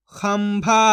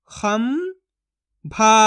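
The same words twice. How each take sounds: First: Said in the usual way. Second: खंभा split as "खं", long pause, "भा"; syllable by syllable. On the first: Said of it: "तो मिलके बन जाएगा". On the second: Shown as a demonstration. Teacher sounds out खंभा for learners, syllable by syllable. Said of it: "एक एक अक्षर का उच्चारण करके".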